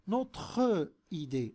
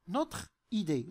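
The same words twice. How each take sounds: First: The e of notre is sounded before idée. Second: The e of notre is silent before idée. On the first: The speaker calls it wrong. "لم نقل notre idée" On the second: The speaker calls it right. "لن ننطق به"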